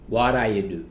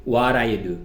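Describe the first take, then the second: First: The first words blur together like 'waraya'. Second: The first words blur together like 'waraya'.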